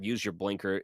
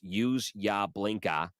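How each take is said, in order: First: The final r sounds are pronounced clearly. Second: The final r sounds are dropped. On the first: "instead of" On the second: "'cause you're in Massachusetts, and that's kinda how the way people talk"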